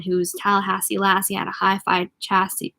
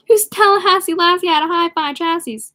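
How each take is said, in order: First: Said in the usual way. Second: Re-read it in amused disbelief; incredulous reread. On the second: Real, not acted. Reader rereading the strange line to listeners, baffled.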